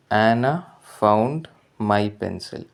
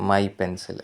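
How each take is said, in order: First: Found my pencil, drawn out very slowly word by word; slow dictation. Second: Said in the usual way. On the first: Shown as a demonstration. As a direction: read found my pencil slowly for students to follow. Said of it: "teacher reads example sentence". (found my pencil വളരെ പതുക്കെ വായിക്കുന്നു) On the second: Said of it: "teacher repeats phrase".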